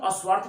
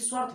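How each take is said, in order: First: An extra vowel comes before the initial s. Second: The word begins directly with the s sound. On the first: "अस्वार्थ बोलेंगे" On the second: "कि स्वार्थ बोलेंगे"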